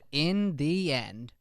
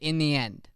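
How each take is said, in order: First: Each word is pronounced distinctly and crisply. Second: The words are slurred together into one mumble. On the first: The speaker calls it right. "Instead of" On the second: The speaker calls it wrong. "We tend to put phrases together"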